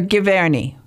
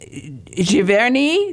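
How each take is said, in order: First: The name is said American style, hard G. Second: The name is said the French way, soft G.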